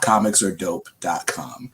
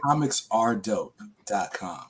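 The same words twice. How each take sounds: First: The word 'are' is reduced, sounding like 'or'. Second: The word 'are' is said clearly and fully. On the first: The speaker calls it wrong. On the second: The speaker calls it right.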